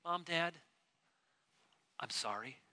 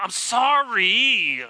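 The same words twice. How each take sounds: First: Sincere sorry. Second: Loud, dragged-out mock sorry; a grudging, sarcastic apology, drawn out slowly; insincere sorry. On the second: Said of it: "Not the". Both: Shown as a demonstration.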